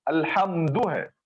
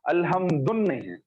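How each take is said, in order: First: अल्हम्दु ending cleanly on short u, no n; correct form. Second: अल्हम्दुन with an added final n, quick; wrong form shown. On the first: Teacher showing students the right अल्हम्दु, clear and even. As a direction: say अल्हम्दु with the final u left open. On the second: Teacher contrasting the wrong अल्हम्दुन for the class, quick. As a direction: tack an n onto अल्हम्दुन to show the mistake. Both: Shown as a demonstration.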